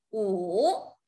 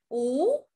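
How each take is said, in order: First: The pitch dips low and then rises. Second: The pitch rises from middle to high.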